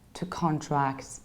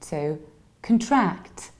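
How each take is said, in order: First: The stress is on the first syllable of contract. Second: The stress is on the last syllable of contract. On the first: It names an agreement, a noun. The speaker calls it wrong. "we can't say here to contract because that was a noun" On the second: It is an action, a verb. The speaker calls it right. "it shifts from the very beginning to the very end"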